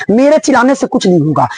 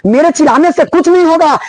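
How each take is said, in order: First: Said in the usual way. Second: नहीं pushed up with a firmer, higher-pitched stress; emphatic repeat. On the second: Shown as a demonstration. Teacher telling students his shouting won't help, stressing नहीं. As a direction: lean hard on नहीं the second time.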